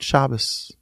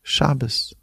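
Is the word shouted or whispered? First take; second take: whispered; whispered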